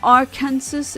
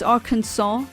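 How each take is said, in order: First: It ends like 'Kansas', with a final 's' sound. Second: It ends in 'saw', with no final 's' sound. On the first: The speaker calls it wrong. "the state called Kansas is pronounced as Kansas. And it's not Arkansas" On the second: The speaker calls it right. "it's Arkansas"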